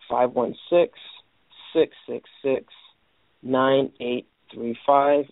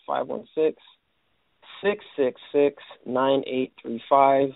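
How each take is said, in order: Both takes have the same delivery.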